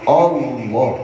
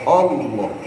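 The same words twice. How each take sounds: First: The first vowel sounds like 'o'. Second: The same.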